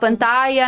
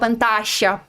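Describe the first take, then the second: First: The last consonant sounds like an English y. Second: The last consonant is a hissing sh sound. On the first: "na Espanha a gente fala" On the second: "na Argentina a gente fala"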